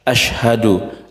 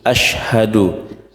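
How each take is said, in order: The two takes are said the same way.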